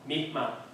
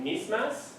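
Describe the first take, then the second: First: The final s sound is dropped completely. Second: The final s sound is pronounced.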